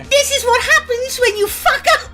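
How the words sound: It is said in an attempted English accent.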